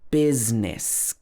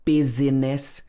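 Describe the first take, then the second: First: It has two syllables, with no middle vowel. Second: It has three syllables, with a middle vowel. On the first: The speaker calls it right. "It should be business. B-I-Z-N-I-S" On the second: The speaker calls it wrong. "This is not buzziness or busyness. There's no I in the middle"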